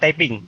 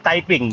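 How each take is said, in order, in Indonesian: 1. Vokal pertama terdengar seperti 'ah'. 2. Vokal pertama terdengar seperti 'eye'. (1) "bukan taping" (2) "itu yang benar typing"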